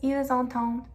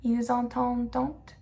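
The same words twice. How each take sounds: First: The final -ent ending is silent. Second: The final -ent ending is pronounced aloud. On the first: The speaker calls it right. "No, it's just ils entendent" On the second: The speaker calls it wrong. "We don't pronounce the E N T. It's not ils entendent"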